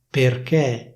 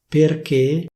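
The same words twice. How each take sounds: First: The final E vowel is open. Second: The final E vowel is closed. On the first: This is how it is said in Milan. "a Milano queste parole vengono pronunciate con una E aperta" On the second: This is the standard pronunciation. "In alcune parole la pronuncia ufficiale prevede una E chiusa"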